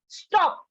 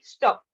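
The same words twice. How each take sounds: First: It is said with strong, forceful emphasis. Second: It is said flatly, without force.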